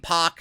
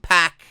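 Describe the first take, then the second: First: The vowel differs from the one in pack. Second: The vowel matches the one in pack. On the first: "I call him Pac" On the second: "Like he's packing his fucking bags"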